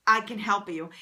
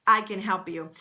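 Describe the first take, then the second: No difference in how they are said.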